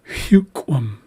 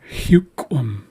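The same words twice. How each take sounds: No difference in how they are said.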